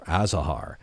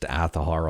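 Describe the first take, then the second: First: The middle consonant is a z sound. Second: The middle consonant is a th sound. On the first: This is how many people think it is said. The speaker calls it wrong. "or Azahar" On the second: This is how the developers say it. The speaker calls it right. "this one is pronounced Athahar"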